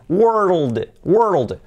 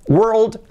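First: WORLD drawn out as wer-ruld, falling; deliberate model WORLD; careful pronunciation. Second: WORLD said in one quick, higher beat; natural-pace WORLD; normal speed. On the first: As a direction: roll WORLD from R into dark L and D. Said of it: "tenemos ya mundo". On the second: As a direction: say WORLD compactly, without stretching. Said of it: "a velocidad normal". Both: Shown as a demonstration.

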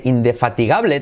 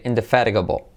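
First: Indefatigable read as Spanish, ending GAH-bleh; spelling pronunciation. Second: Indefatigable said in-deh-FA-ri-guh-bul; English pronunciation. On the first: Teacher breaks down the written word, spelling pronunciation. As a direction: indefatigable with every written vowel sounded. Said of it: "In-, fíjate". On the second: Teacher puts the key sounds together, English pronunciation. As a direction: lower indefatigable with tapped t and dark l. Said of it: "y luego letra clave L". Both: Shown as a demonstration.

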